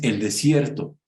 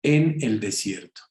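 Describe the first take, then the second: First: Said in the usual way. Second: "en" picked out before "el desierto"; stress on EN. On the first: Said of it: "No es el desierto". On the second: Shown as a demonstration. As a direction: make the "en" count in "en el desierto". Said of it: "Así completo, ¿eh? Como se los digo".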